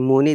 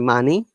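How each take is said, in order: First: The first vowel is a Liverpool 'oo' sound. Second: The first vowel is a short standard 'uh' sound. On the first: "they say mooney" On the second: "they don't say money"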